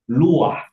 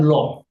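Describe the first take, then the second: First: The word has two syllables, lu-ah. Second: The word is one short syllable, loh. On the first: The original Middle Eastern pronunciation. The speaker calls it right. "harusnya di, dipronoun luah" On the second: The shifted pronunciation used in Indonesia. The speaker calls it wrong. "bukan loh"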